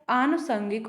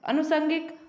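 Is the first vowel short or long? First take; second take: long; short. First: The first vowel is long. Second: The first vowel is short. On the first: The speaker calls it right. "आनुषंगिक होता है।" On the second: The speaker calls it wrong. "अनुषंगिक नहीं होता है, यह गलत है।"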